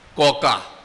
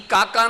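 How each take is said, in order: First: The first vowel is rounded toward 'o'. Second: The first vowel is a plain 'a' sound.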